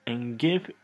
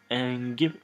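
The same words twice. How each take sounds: The two takes are said the same way.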